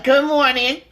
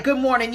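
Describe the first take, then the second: First: Loud, sour mock good morning; bitter greeting. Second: Said in the usual way. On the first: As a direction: greet back with a nasty edge. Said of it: "your face is just looking all nasty". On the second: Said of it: "they're like".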